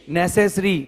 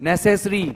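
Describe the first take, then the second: The two takes are said the same way.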